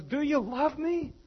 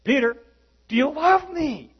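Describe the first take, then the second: First: High, slow, gentle question; Jesus asking Peter, higher and slow; tender questioning Jesus. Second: High, loud repeated question; Jesus asking Peter again, higher and louder; pressing Jesus. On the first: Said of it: "he goes". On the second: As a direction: push the question harder. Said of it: "He says". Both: Retold or imitated.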